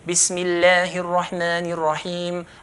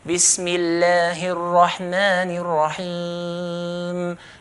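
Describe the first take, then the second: First: It is recited at a fast pace. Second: It is recited at a medium pace.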